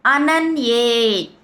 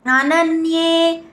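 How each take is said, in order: First: Said in the usual way. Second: అనన్యే chanted high, as in the verse; chanted, intone అనన్యే in the recitation tune. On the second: Shown as a demonstration. Teacher models the chant for students, intoned high. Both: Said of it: "మూడో చరణం".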